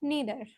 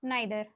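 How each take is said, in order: First: The first vowel sounds like 'ee'. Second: The first vowel sounds like 'eye'. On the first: "नीदर बोलते हो" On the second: "या नाइदर पढ़ते हो"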